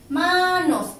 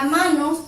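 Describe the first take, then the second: First: "manos" split in two, with a high, drawn-out "ma"; teacher's syllable-by-syllable "manos", first beat held; stress on first syllable. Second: Said in the usual way. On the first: Shown as a demonstration. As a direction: stretch the "ma" of "manos", then drop on "nos". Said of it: "se carga". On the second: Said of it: "separamos en sílabas".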